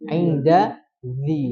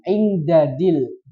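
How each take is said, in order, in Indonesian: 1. Konsonan kedua diucapkan dengan bunyi z. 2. Kedua konsonan itu diucapkan dengan bunyi d. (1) "yang betul" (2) "karena enaknya da semua"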